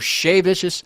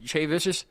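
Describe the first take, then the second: First: The name begins with an sh sound. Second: The name begins with a ch sound. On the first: This is how the band members say it. "But they say Shay" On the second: This is the speaker's regional way of saying it. "I say Che because that's what it"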